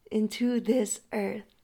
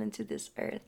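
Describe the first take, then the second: First: INTO THIS EARTH said slowly and louder, with weight; slow down and press on every word of "Into this earth"; emphatic repeat. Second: Said in the usual way. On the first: Shown as a demonstration. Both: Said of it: "Emphasis on that".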